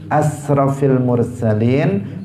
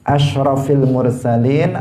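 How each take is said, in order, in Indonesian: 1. Kata pertama memiliki bunyi 's'. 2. Kata pertama memiliki bunyi 'sh'.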